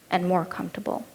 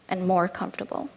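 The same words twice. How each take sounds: The two takes are said the same way.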